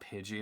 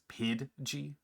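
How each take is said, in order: First: The name is said plainly, without force. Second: The name is said forcefully, with a hard D. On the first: "it's not Pidgey anymore" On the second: "aggressively pronounce these names ... that D pronunciation"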